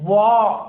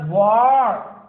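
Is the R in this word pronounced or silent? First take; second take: silent; pronounced. First: The R is silent, British style. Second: The R is pronounced, American style.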